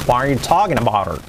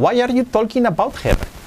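First: "Why are you talking about her" run together as "tokin abouter"; native-like linked English. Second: "Why are you talking about her" high, with L in "talking" and "jer"; bad Spanish-accented English. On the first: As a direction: link every word, falling at the end. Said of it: "lo vamos a entender más fácil". ("Why are you talking about her" unido, bien pronunciado) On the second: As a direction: sound every letter Spanish-style, pitched high. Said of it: "que si nos dijeran". ("Why are you talking about her" con mal acento español) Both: Shown as a demonstration.

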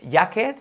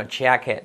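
First: "jacket" as "yaket", rising; Spanish J. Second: "jacket" starting with a firm "dch" sound, falling; English J. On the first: Teacher shows the mistake, Y sound in "jacket". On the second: Teacher gives the correction, English J in "jacket". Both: Shown as a demonstration. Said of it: "la J no vamos a decir".

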